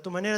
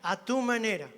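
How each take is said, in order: First: It is said very fast. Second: It is said at a calm, normal pace.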